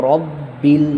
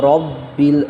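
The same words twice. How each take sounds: Both takes have the same delivery.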